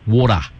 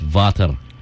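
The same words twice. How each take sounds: First: It is said in an Australian accent. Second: It is said in a German accent. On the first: "an Aussie would say water" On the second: "a German would say it as water"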